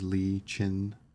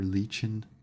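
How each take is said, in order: First: The name is said slowly, as two parts. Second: The name is said fast, run together.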